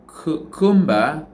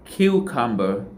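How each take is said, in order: First: "cucumber" with a full, clear "u" in every syllable; wrong full vowels. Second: "cucumber" with a weak schwa in the last syllable, "-bə"; correct schwa. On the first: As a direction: slowly sound out "cucumber" with no schwa, the wrong way. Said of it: "we didn't say". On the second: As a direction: reduce the end of "cucumber" to a light "uh". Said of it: "the word is". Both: Shown as a demonstration.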